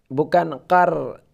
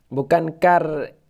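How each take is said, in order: Both takes have the same delivery.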